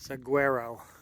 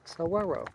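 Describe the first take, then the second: First: The middle consonant is a hard G sound. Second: The middle consonant is a W sound. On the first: This is the familiar non-Spanish way of saying it. "I grew up always pronouncing it saguaro" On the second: This is the Spanish-speaking way of saying it. "the G U is a W sound. So it's saguaro"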